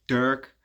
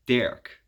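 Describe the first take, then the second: First: "Dirk" with an English er vowel, as in "her"; English pronunciation. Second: "Dirk" the Dutch way, with an open eh before the r; Dutch pronunciation. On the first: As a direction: say "Dirk" the English way, rhyming with "work". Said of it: "that's how you pronounce it in English". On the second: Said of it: "in Dutch we say". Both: Shown as a demonstration.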